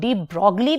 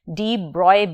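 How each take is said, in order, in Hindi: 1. नाम 'glee' ध्वनि पर खत्म होता है। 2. नाम 'oy' ध्वनि पर खत्म होता है। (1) "इसको डी ब्रॉगली भी कुछ लोग प्रोनाउंस करते हैं" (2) "आप इसे डी ब्रॉय भी प्रोनाउंस कर सकते हैं"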